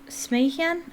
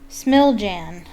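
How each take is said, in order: First: The name is said in its believed native pronunciation. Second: The name is read out literally as it looks. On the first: The speaker calls it right. "I believe that's how you pronounce it" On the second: The speaker calls it wrong. "That's not how you pronounce it, but that's what it looks like"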